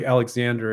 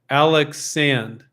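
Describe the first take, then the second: First: The name ends in an English-style 'sander' sound. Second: The name ends in a French-style 'sand' sound. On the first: The speaker calls it wrong. "I'll promptly forget that and call it Alexander again" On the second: The speaker calls it right. "It's pronounced Al Alex Sand, ... and it's a French name"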